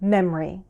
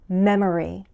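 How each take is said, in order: First: The word is said with one syllable dropped. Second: The word is said with its full syllables.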